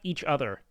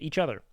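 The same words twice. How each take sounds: First: The two words are said separately, not linked. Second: The two words run together smoothly as one. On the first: The speaker calls it wrong. "But he went each other. Like two separate words" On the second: The speaker calls it right. "that's how you say it"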